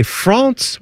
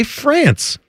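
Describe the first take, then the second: First: "France" said the French way, as "Frahnce"; put-on French vowel in "France", high pitched; French pronunciation of France. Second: "France" with a hard American short A; high, emphatic American "France", rhyming with "dance"; American pronunciation of France. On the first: Host showing what we don't say, "France" pronounced the French way. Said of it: "We don't say France". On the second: Host insisting on what we just say, "France" the American way. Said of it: "We just say France". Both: Shown as a demonstration.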